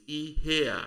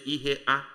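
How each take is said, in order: First: "ihe a" drawn out, A gliding on from the E; "ihe a" stretched and linked, no break before A; joined but distinct A. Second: "ihe a" chopped before the final A; wrong-way "ihe a", a gap before A; over-separated A. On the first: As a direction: say "ihe a" as one smooth word with an audible falling A. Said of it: "the A sound must come out to make it distinct". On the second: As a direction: detach the A in "ihe a" as a separate word. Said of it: "You don't say ihe a". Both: Shown as a demonstration.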